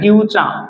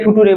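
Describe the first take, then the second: First: The middle consonant is a ch sound. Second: The middle consonant is a plain t sound. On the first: The speaker calls it right. "টির উচ্চারণ আসলে চ হয়" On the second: The speaker calls it wrong. "ফুটুরে বলি না"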